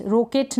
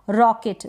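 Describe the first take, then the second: First: रॉकेट with a closed "oh", as "roh-ket"; mispronunciation demo. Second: रॉकेट with an open "aw"; correct vowel demo. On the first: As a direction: round the first vowel of रॉकेट to a long "o". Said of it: "रॉकेट नहीं हो रहा". (रॉकेट को "रोकेट" बोलकर दिखाना) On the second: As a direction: say रॉकेट like English "rocket". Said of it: "ओ नहीं हो रहा". (रॉकेट में ऑ की आवाज़) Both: Shown as a demonstration.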